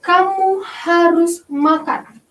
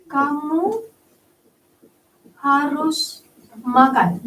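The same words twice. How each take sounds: First: Slow, firm command; teacher demonstrating an imperative sentence; commanding example. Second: Slow, deliberate command; teacher rereading the command example; firm order. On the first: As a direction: say it as a firm order. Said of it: "ada contohnya". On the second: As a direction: lay down the order word by word. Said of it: "Diakhiri dengan tanda seru". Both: Shown as a demonstration.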